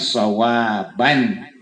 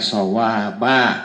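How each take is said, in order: First: The word ends with an n sound. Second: The word ends with a vowel. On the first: The reader continues without stopping. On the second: The reader stops after this word.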